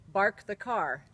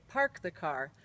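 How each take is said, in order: First: "bark" with b in place of p; mother's Finnish mispronunciation. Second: Said in the usual way. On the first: Retold or imitated. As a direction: say "bark the car" for park the car. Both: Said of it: "when she meant to say".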